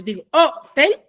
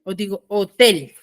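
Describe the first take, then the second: First: "hotel" with the first syllable HO stressed and split off; stress demo. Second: "hotel" with the last syllable TEL stressed; stress demo. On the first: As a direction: lean on the HO of "hotel", then a short break before "tel". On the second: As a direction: join "hotel" up and lean on the final TEL. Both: Shown as a demonstration. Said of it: "¿cómo yo pronuncio?".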